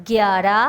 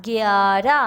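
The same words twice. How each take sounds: First: Said in the usual way. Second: گیارہ with a long "aa", rising at the end; teacher stretching گیارہ for the class; drawn-out pronunciation. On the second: Shown as a demonstration. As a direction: sound out گیارہ slowly as gyaa-ra. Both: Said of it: "آپ کو اس کے بولنے سے".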